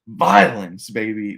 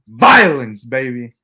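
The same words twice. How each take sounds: First: It is said fairly quietly. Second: It is said loudly, like an impression.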